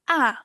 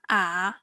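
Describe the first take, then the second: First: The syllable is said with the fourth tone. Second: The syllable is said with the third tone.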